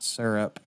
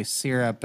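First: R-coloured first vowel in syrup; syrup with "sur". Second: First vowel of syrup as "ee"; syrup with "seer". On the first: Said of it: "and not syrup". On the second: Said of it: "I say syrup and not syrup". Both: Shown as a demonstration.

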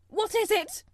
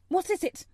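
First: Much higher, loud terrified cry; the second time nearly shrieking; panicked gasp. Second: High, loud alarmed question; frightened gasp. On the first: Mother terrified by the wailing, panicked shriek. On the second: Mother startled by the wailing, gasping in fear. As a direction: ask it in rising panic. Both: Acted. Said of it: "Missus Lennox gasped".

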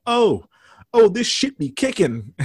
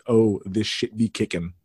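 First: Louder, high-pitched goofy holler; hammed-up excited outburst; mock drugged yell. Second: Said in the usual way. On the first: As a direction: imitate a square guy pretending to be high. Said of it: "acting like he had just done drugs and yelling out".

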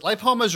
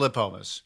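First: "lipomas" with first syllable like "lie"; long-i pronunciation. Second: "lipomas" with first syllable like "lip"; short-i pronunciation. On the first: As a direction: say "lipomas" as lie-POH-muhz. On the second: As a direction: say "lipomas" as lih-POH-muhz. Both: Shown as a demonstration. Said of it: "Is it lipomas or lipomas?".

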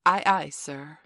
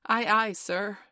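First: Put-on loud drill by a young captain; forceful, loud naval reply as an order; commanding model. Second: Loud, high, eager response; high-pitched, dutiful shout; obedient sailor's reply. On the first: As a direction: call it out firmly for a recruit to copy. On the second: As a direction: sing out like a new recruit answering the captain. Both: A narrator's reading. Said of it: "Say, 'Aye, aye, sir.'".

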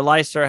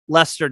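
First: "Leicester" said as LIE-ster; alternate pronunciation. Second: Said in the usual way. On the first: Shown as a demonstration. Host allowing another way to say the club name, alternate pronunciation of "Leicester". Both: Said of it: "however you wanna say it".

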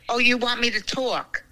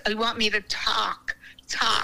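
First: "talk" with a rounded "aw" vowel; accented pronunciation. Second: "talk" with an open "ah", as "tahk"; corrected pronunciation. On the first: Grandmother joking with grandson, rounded "talk". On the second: Grandmother joking with grandson, open "tahk". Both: Shown as a demonstration.

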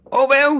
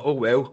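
First: Oh well shrieked very high and very loud; "Oh well" yelled back at the missus, very high and very loud; exploding mock outburst. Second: Said in the usual way. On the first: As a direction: blow up on "Oh well", voice cracking up high. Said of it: "Ready to go off one". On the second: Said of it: "She's like".

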